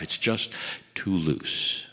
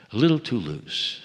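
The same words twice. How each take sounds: First: Mock doubter. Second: Said in the usual way. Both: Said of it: "there are those who say it's not good enough".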